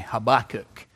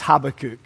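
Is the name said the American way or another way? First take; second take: American; other. First: The name is said the American way. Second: The name is said a non-American way. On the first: The speaker calls it wrong. "or as Americans say" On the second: The speaker calls it right. "But it's Habakkuk"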